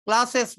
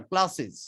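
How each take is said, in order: First: ক্লাসেস with a hard "es", hissed s; ক্লাসেস ending sharp and hissing; wrong ending. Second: ক্লাসেস ending in "iz"; ক্লাসেস with a light i and buzzing z; correct ending. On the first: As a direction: say ক্লাসেস as "klas-es". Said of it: "ক্লাসেস না". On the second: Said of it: "শেষে বর্গীয় জয়ের উচ্চারণ হবে". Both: Shown as a demonstration.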